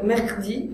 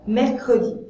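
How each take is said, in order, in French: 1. Le E après mer ne se prononce pas du tout. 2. Le E après mer se prononce comme une voyelle. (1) "sinon je devrais dire mercredi, et c'est très difficile" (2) "J'ai besoin de ce E dans mercredi"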